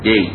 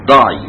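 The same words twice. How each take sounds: First: The word is said in an Oxford accent. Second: The word is said in a London accent. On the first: "بدل داي" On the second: "لندن ... يعني مثلا يقول لك داي"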